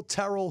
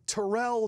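First: "Terrell" stressed on the first syllable; higher TER-ul for "Terrell"; name variant. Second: "Terrell" stressed on the second syllable; higher tuh-RELL for "Terrell"; name variant. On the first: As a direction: say "Terrell" as TER-ul, raised pitch. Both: Retold or imitated. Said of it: "I was like".

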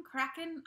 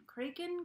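First: Kraken? said KRACK-en with a questioning rise; unsure pronunciation. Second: Kraken? said KRAY-ken with a questioning rise; unsure pronunciation. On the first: Testing Kraken as KRACK-en for viewers, unsure. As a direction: try Kraken as KRACK-en, asking. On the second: Testing Kraken as KRAY-ken for viewers, unsure. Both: Shown as a demonstration. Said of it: "I don't know how to say it".

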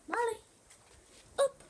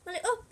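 First: Said in the usual way. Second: High, loud call to the dog. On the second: Real, not acted. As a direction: call her up brightly. Calling dog to jump up.

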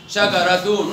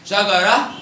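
First: شجرة said as "shagaratun"; sounded taa. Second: Second round, شجرة as "shagarah"; pausal haa. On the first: Teacher repeats the test, شجرة ending in -tun. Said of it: "بالتاء مرة". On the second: Teacher repeats the test, شجرة ending in -ah. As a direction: end شجرة on h, no t. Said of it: "وبالهاء مرة". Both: Shown as a demonstration.

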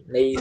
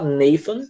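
First: "Nathan" com a língua entre os dentes, mais agudo; Nathan correto com TH. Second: "Nathan" dito "Nefan", com F no lugar do TH. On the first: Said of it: "Mas é Nathan". ("Nathan" com o som do teta, mais agudo) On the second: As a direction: troque o TH de "Nathan" por F. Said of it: "Se falar Nathan". ("Nathan" pronunciado com som de F) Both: Shown as a demonstration.

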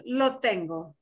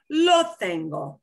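First: Said in the usual way. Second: "Lo tengo" slow, with a drawn-out "Lo"; emphatic model phrase. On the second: Shown as a demonstration. Teacher modelling "Lo tengo" for student, slow and emphatic. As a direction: spell out "Lo tengo" slowly, leaning on "Lo".

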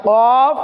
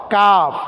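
First: কফ long and rounded from the tongue root; back-of-tongue Q. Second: কাফ with the tongue slightly forward of its root; light, open K in কাফ, tongue on the palate. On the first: Teacher drills the contrast with kaf, tongue-root Q in কফ. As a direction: Q far back against the palate in কফ. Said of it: "জিহ্বার গোড়া তার উপরের বরাবর". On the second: Teacher contrasts it with qaf, forward-tongue K in কাফ. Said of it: "একটু আগে সামনের দিকে অগ্রসর হয়ে". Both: Shown as a demonstration.

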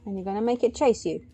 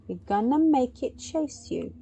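First: Said in the usual way. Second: "gonna make it chase" stretched out, word by word. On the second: Real, not acted. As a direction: spell out the plan, leaning on "make" with raised pitch. Repeats plan with emphasis.

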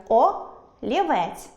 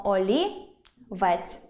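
First: Олівець broken as о — лівець; олівець split after the first letter; wrong split. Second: Олівець broken as олі — вець; олівець split before the last syllable; correct split. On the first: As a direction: say о alone, pause, then лівець. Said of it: "Чи правильно так перенести слово". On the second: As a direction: say олі rising, pause, then вець. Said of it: "тому переносимо". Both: Shown as a demonstration.

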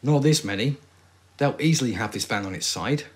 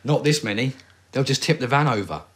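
First: Stiff, wooden line reading; awful acting. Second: Louder, higher, urgent delivery; better acting. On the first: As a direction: deliver it badly, like bad acting. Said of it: "That was awful acting". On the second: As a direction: play it urgent and alarmed.

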